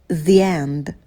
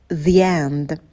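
The two takes are said the same way.

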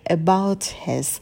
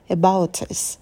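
First: The h sound in 'his' is pronounced. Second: The h sound in 'his' is dropped.

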